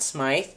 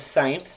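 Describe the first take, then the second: First: The name ends with a 'th' sound. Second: The name ends with an 'mpf' sound. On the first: The speaker calls it wrong. "not Smythe" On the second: The speaker calls it right. "the way to pronounce my name is Seimpf"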